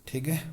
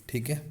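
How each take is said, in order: Both takes have the same delivery.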